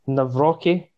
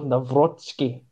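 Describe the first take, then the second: First: It is said without a t sound. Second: It is said with a t sound.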